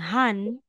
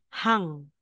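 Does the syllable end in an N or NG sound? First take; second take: N; NG. First: The syllable ends with a plain n sound. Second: The syllable ends with an ng sound. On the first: The speaker calls it wrong. "hindi na natin babasahin na letter N" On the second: The speaker calls it right. "kundi N G. ... magiging Hang"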